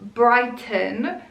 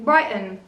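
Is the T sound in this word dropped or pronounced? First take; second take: pronounced; dropped. First: The T is clearly pronounced. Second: The T is dropped with a glottal stop. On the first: "I lived in the city called" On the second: "everybody was saying"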